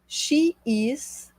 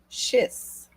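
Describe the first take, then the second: First: Both words are said separately in full. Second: The words merge into one short syllable.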